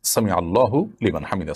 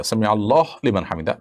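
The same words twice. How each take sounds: First: সামি আল্লাহু লিমান হামিদা with the হু of আল্লাহু kept; correct pronunciation. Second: সামি আল্লাহ লিমান হামিদা with a stop after আল্লাহ, হু dropped; wrong pronunciation. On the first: Teacher giving the right version before the wrong one. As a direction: carry আল্লাহু straight into লিমান. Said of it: "এটি হলো শব্দের সঠিক উচ্চারণ". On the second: Teacher showing the mistaken recitation. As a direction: clip আল্লাহ short, no হু. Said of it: "এটা সঠিক উচ্চারণ নয়". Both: Shown as a demonstration.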